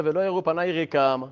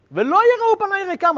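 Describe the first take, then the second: First: Said in the usual way. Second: Much higher and louder, soaring out the verse; dramatic cry. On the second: Shown as a demonstration. Teacher repeating the verse to students, now a loud high cry. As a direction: hurl ולא יראו פניי ריקם out like a lament.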